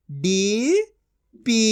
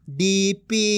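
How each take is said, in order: First: DP split into डी, pause, पी; syllable by syllable. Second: DP as one joined word; level DP with no long pause; blended reading. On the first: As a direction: sound out DP in two syllables. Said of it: "एक एक अक्षर का उच्चारण करके". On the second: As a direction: join डी and पी. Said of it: "इनको आपस मिला के पढ़". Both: Shown as a demonstration.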